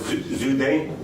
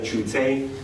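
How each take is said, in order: First: The name is said in a Mandarin-like way. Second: The name is said in an older anglicized way. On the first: This is how it is said now. "now it's Zhu De" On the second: This is how it used to be said in English. "in the English, we used to say Chu Te"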